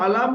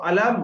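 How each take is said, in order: First: "আলাম" closed on the outer lips; wrong dry-lip meem. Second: "আলাম" with m closed on the inner lips; correct wet-lip meem. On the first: Teacher warns students of the mistake, dry-lip "আলাম". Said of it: "যেন শুকনো অংশ". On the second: Teacher models correct meem, wet-lip "আলাম". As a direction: join moist inner lips at the end of "আলাম". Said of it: "আমরা দুটো ঠোঁটের ভিজে অংশ". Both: Shown as a demonstration.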